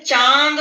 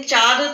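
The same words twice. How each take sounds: First: चांद with the आ sent through the nose; nasalised vowel. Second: चाँद said as चाद, with an oral आ; no nasal sound. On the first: Teacher gives children the correct चांद, nasalised vowel. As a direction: nasalise the long आ in चांद before the द. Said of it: "चांद बोलते वक्त नाक से आवाज निकलती है". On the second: Teacher rejects the wrong word for children, without nasality. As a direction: keep the nose out of चाँद, saying चाद. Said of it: "चाँद तो होता नहीं है". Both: Shown as a demonstration.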